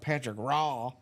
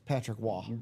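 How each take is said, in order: First: The surname starts with a hard R sound. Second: The surname starts with a W sound. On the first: The speaker calls it wrong. "like you don't go hard R" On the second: The speaker calls it right. "It's more like a Waugh, like a W sound"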